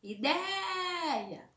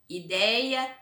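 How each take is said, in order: First: Ideia with DEI held long and high; stress on DEI. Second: Said in the usual way. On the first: Shown as a demonstration. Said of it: "vocês vão pronunciar". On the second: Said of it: "pra vocês pronunciar e marcar".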